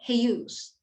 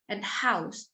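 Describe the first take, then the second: First: The vowel starts with the tongue near center. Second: The vowel starts with an open, low tongue.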